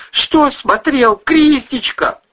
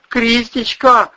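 First: High, loud, slow pleading; babbling. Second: High, slow sobbing cry of her name; sobbed. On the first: Husband pleading with angry wife, slow high babble. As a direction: drag it out, confused and scared. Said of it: "лепетал Бонасюк". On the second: Husband sobbing over fallen wife, high slow cry. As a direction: call her name through sobs. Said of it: "схлипнул Вась-Вась". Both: Acted.

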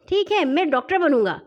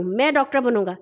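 First: Put-on higher, eager child's voice; lightly voiced small boy; little boy. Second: Put-on firm bigger-boy claim; mildly domineering statement; bossy scolding. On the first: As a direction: agree and claim the role as a child. Younger boy eagerly claims the role. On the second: A narrator's reading. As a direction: declare it as the one in charge. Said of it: "مٹو نے پھر ڈانٹ کر کہا".

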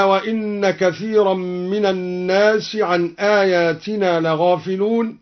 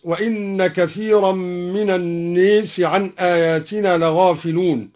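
First: Said in the usual way. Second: الناس with the a leaned toward e, as naes; الناس بالإمالة; imala on an-nas. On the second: Shown as a demonstration. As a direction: tilt the long vowel of الناس toward e. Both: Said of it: "بإمالة الناس".

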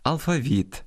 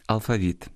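First: Алфавіт stressed on the final -віт; stress on last syllable. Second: Алфавіт stressed inside the word, on -фа-; traditional stress. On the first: Host shows the stress shared with Russian, final-syllable stress on алфавіт. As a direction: raise the end of алфавіт, then drop. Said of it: "обирають спільний з російським". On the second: Host gives the traditional variant, stress on -фа- in алфавіт. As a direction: put the weight on -фа- in алфавіт. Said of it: "природніші традиційні наголоси". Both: Shown as a demonstration.

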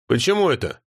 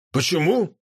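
First: Suspicious. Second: Mild surprised rise on «Почему?»; feigned surprise, echoing the question. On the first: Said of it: "спросила Нотти с подозрением". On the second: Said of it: "удивился Обжора". (удивлённо переспросить) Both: A narrator's reading.

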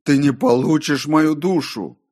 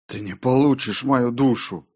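First: Loud, high cry of defiance; full-voiced, raised refusal; defiant shout. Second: Defiant line, higher and not hushed; tense, raised-pitch defiance; muttered defiance. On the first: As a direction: hurl the refusal at the tempter. Defiance repeated louder to the voice. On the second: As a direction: refuse the tempter through a tense mutter. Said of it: "пробормотал я". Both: A narrator's reading.

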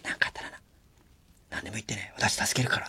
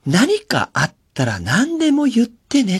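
First: Soft whisper meant only for the staff; whispered aside. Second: High, slow, sugary call for all to hear; showy sweet boss. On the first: Shown as a demonstration. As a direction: say it quietly behind the scenes. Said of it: "裏で言えばいいんだよ". (裏でこっそり囁く声) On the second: Retold or imitated. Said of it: "すんげえ大きな声で言ってんのね". (甲高くゆっくり、周りに聞かせる優しい声)

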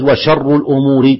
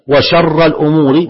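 First: "وشر" ending in a short -u, "sharru"; nominative ending. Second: "وشر" ending in a short -a, "sharra"; accusative ending. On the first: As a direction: say "وشر" with a final damma. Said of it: "ويجوز". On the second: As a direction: say "وشر" with a final fatha. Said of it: "ويجوز "وشر الأمور". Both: Shown as a demonstration.

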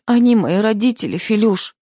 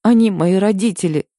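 First: Wife begs her husband Филюш through sobs, high and tearful; sobbing. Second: High, tearful plea with a catch in the voice; wife sobs to her husband, defending her parents, tearful; sobbing. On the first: Sob it out, pleading. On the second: Tearful plea, voice rising. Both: A narrator's reading. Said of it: "всхлипнула я".

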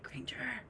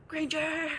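First: Whispered Granger, unvoiced and soft. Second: Said in the usual way. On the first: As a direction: whisper Granger to wake her. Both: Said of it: "That's exactly how he says it".

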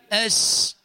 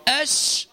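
First: أش with thin, forward sh; faulty shin. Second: أش with full hushing sh from mid-tongue; correct shin. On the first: Teacher shows what not to say, misplaced sh. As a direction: let the sh of أش slip off mid-tongue. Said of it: "وليس". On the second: Teacher tells muezzin how to say it, clear sh. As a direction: spread the air on the sh of أش. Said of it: "فتقول أش وليس". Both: Shown as a demonstration.

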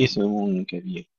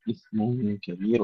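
First: إثم with a wrongly bounced, echoing ث; wrong bouncing TH. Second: إثم كبير with a soft, hissed ث and no echo; breathy TH, no bounce. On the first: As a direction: demonstrate the bad bounce on إثم. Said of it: "ولا نقول". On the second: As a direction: hold the ث in إثم quietly, do not bounce it. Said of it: "الثاء فيها همس وليس فيها قلقلة". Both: Shown as a demonstration.

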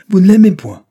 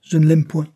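First: Much higher and louder, incredulous; outraged repeat. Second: Faltering, higher and louder; stammering. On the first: Judge repeating his daughter's words, outraged shout. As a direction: throw her words back at her. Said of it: "répéta monsieur R". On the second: Daughter confessing to angry father, stammering. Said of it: "balbutia la jeune fille". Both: A narrator's reading.

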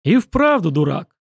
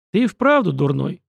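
First: Scornful snort, a bit louder. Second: Said in the usual way. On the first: A narrator's reading. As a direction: snort it out dismissively. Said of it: "фыркнул Руслан".

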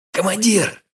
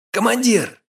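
First: High urgent call from afar. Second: Higher, more urgent second call; repeated call. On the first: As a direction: call the commander while still running. (взволнованный окрик издалека) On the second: (повторный, более высокий окрик) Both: A narrator's reading. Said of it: "крикнул кавалерист".

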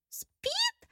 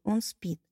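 First: Outraged question soaring very high; indignant. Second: Said in the usual way. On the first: A narrator's reading. Bride outraged that her groom is only asleep. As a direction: fling the word back in disbelief. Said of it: "возмутилась Эль".

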